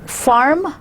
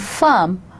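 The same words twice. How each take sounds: First: The R after the vowel is clearly pronounced. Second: The R after the vowel is not pronounced. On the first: This is the American pronunciation. "giving the definition to the R, would be American" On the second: This is the British pronunciation. "farm would be the British"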